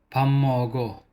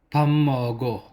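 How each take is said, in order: First: The first syllable ends in an m sound. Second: The first syllable ends in an m sound.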